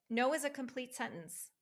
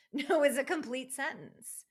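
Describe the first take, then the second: First: Said in the usual way. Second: Louder, firmer take on NO; No is a complete sentence said loud and certain; emphatic no. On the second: Shown as a demonstration. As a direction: hit No hard and final. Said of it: "just in case anybody wondered".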